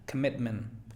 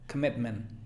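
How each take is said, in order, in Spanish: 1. La primera vocal es una schwa suave. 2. La primera vocal es una schwa suave.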